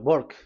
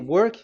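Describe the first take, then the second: First: The word begins with a B-like sound. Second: The word begins with a W sound. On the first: "W is pronounced as B" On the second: "if you say"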